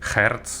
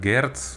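First: The word begins with a breathy H sound. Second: The word begins with a voiced G sound.

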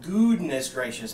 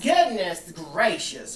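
First: The vowel in 'good' is a long 'ooh'. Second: The vowel in 'good' is short, as usual. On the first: The speaker calls it right. "you actually pronounce our last name good. It's a ooh" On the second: The speaker calls it wrong. "it's not like goodness gracious. It's not like that"

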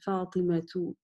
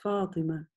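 First: The name ends with a full -tu. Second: The name ends on a plain vowel.

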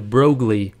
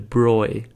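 First: The ending is said with a g-l sound. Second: The ending is said with a y sound. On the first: The speaker calls it wrong. "now it looks like you pronounce this" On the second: The speaker calls it right. "it's more like ... replace it with a Y"

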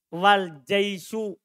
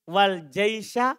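First: The last word ends with a 'u' vowel. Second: The last word ends with an 'a' vowel. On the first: The commander and the army both come. "Kalau antum baca jaisu, dhamma, dan" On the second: The army comes together with the commander. "Kalau antum baca fathah bersama wawunya"

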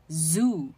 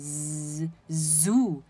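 First: The opening z sound is short and normal. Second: The opening z sound is drawn out long.

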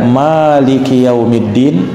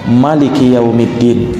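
First: The vowel after the m is long. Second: The vowel after the m is short. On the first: It means the owner of the Day of Judgment. "dengan memanjangkan huruf mimnya" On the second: It means the king of the Day of Judgment. "dibaca dengan pendek"

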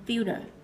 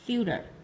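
The two takes are said the same way.

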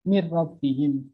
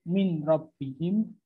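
First: The n merges fully into the following r. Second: The n is kept before the following r. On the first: The speaker calls it right. "langsung jelas bacaannya" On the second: The speaker calls it wrong.

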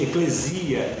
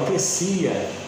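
First: The middle consonant is a voiced z sound. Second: The middle consonant is a voiceless s sound. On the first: The speaker calls it wrong. "não pode ser eclesia, embora tenha um S no meio de duas vogais" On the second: The speaker calls it right. "eu vou falar, ó, eclesia"

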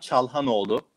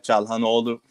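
First: The name is said with Turkish sounds. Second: The name is said with Italian sounds.

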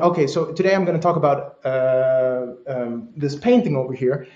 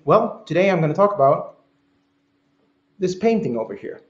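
First: The phrase is broken by uh and um fillers. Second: The phrase flows with only a quiet silent inhale.

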